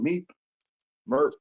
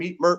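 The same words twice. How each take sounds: First: It is said in a relaxed, unhurried way. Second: It is said in a tense, hurried way. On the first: Nothing much is happening at the stop. "when things slowed down" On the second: The bus is about to arrive and people crowd close. "if he got nervous"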